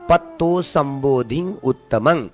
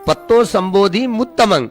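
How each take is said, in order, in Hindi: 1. नासिका ध्वनि dhi को बंद करती है; अंतिम शब्द u से शुरू होता है। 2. m ध्वनि अंतिम शब्द से जुड़ जाती है। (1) "धी पर अनुस्वार दे करके उत्तमंग" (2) "ऐसे अगर कहा तो उसका उच्चारण ठीक से नहीं करना आया।"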